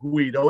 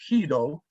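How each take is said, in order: First: The name is said the Italian way. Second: The name is said the Dutch way. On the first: The speaker calls it wrong. "It's not Guido" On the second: The speaker calls it right. "it's Guido"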